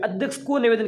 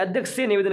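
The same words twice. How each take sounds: First: को punched higher as the wrong word; raised emphasis on को; stress on को. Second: से picked out firmly as the correction; stress on से. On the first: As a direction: lean on को in a questioning challenge. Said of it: "अरे को नहीं आएगा". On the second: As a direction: lean on से as the right word. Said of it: "यहाँ पर तो से आना चाहिए". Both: Shown as a demonstration.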